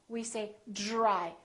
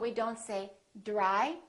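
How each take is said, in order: First: The d sounds almost like j. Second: The d is a plain d sound. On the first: The speaker calls it right. "this D R sort of becomes like the letter J" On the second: The speaker calls it wrong. "So we don't say dry"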